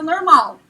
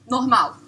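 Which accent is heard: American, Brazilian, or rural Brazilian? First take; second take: rural Brazilian; Brazilian. First: Said with a rural Brazilian countryside accent. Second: Said in a standard Brazilian Portuguese accent. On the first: "Com uma leve entonação do interior" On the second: "Em português você fala"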